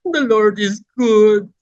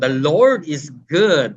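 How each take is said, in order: First: It is said in a crying, tearful way. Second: It is said happily, with a smile.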